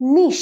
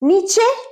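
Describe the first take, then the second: First: The word ends with an 'sh' sound. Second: The word is said with a 'ch' sound. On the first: The speaker calls it right. "এটার উচ্চারণ নিশ" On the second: The speaker calls it wrong. "নিচে না"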